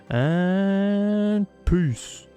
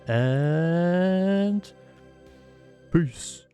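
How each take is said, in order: First: It is said with more energy and punch. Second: It is said flatly, with little energy.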